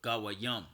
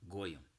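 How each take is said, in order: First: The word is said with three syllables, ga-wa-yim. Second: The word is said with two syllables, goy-im. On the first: This is the proper form of the word. "That's the proper way of saying it" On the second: This is the form a certain group uses. "that's what the small hatters say"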